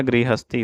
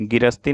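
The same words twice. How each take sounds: First: गृहस्थी as "gri-has-thee"; gri-ha syllables. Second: गिरस्ती as "gi-ras-tee"; dropped h. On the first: Teacher correcting the word, गृहस्थी with gri-ha. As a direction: sound the h in गृहस्थी. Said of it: "गृहस्थी होता है". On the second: Teacher showing the mistake, गिरस्ती with no h. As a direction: say गिरस्ती without any h. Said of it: "गिरस्ती नहीं होता है". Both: Shown as a demonstration.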